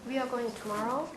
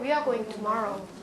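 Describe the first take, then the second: First: It is said with a questioning tune. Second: It is said with a statement tune. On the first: The speaker is asking. "It's a question" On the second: The speaker is telling. "It's a statement"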